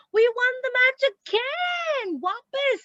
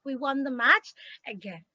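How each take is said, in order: First: Excited cry. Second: Said in the usual way. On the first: Shown as a demonstration. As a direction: call it out with delight, stretched. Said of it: "great emotion". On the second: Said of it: "again put those".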